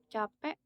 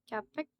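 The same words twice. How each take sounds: The two takes are said the same way.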